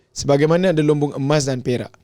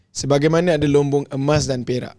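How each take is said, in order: The two takes are said the same way.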